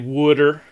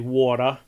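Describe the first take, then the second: First: It is said in a Philadelphia accent. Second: It is said in a general American accent.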